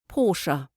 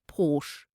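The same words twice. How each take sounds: First: The word is said as two syllables. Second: The word is said as one syllable. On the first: The speaker calls it right. "it is actually two syllables" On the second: The speaker calls it wrong. "a lot of people pronounce it simply as Porsche"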